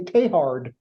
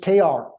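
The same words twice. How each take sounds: First: The name ends with a hard d sound. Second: The name ends in a vowel, with no d. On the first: This is how American scholars say it. "with the hard D at the end" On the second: This is how French speakers say it. "if you listen to a French person say his name, after the T, there's no consonants"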